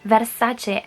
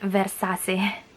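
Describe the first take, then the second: First: The C is sounded like 'ch'. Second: The C is not sounded like 'ch'. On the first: The speaker calls it right. "the reason why we pronounce it Versace" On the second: The speaker calls it wrong. "and not Versace"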